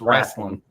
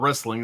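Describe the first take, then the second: First: It is said with a Southern Tennessee pronunciation. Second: It is said with a standard general pronunciation. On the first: The speaker calls it right. "you're in Tennessee now" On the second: The speaker calls it wrong. "you're saying it wrong"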